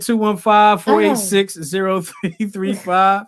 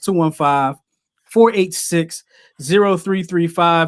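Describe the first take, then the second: First: The number is said at normal, faster speed. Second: The number is said more slowly.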